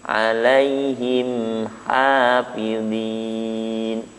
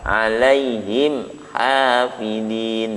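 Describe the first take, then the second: First: The m flows slightly before the next sound. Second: The m is cut off with an abrupt jolt. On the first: The speaker calls it right. "Ada sifat tawasudnya mim" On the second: The speaker calls it wrong. "tidak dihentakkan alaihim hafidhin, tidak begitu"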